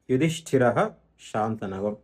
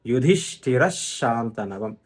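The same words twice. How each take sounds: First: "యుధిష్ఠిరః" ending in a sounded ha, a pause, then "శాంతనవం"; విసర్గం విడదీసి. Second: "యుధిష్ఠిర శాంతనవం" slowly joined as yudhishthirash-shantanavam; doubled sh between "యుధిష్ఠిర" and "శాంతనవం", no ha; పొల్లు షా కలిపి. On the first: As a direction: keep "యుధిష్ఠిరః" and "శాంతనవం" apart, visarga as ha. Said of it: "యుధిష్ఠిరహలో రా తర్వాత విసర్గం ఉంది". ("యుధిష్ఠిరః"లో "హ" పలికి, ఆగి "శాంతనవం") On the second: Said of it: "ఈ పొల్లు షా వెళ్ళి". ("యుధిష్ఠిర శాంతనవం" మధ్య ష్ ఒత్తి, నెమ్మదిగా) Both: Shown as a demonstration.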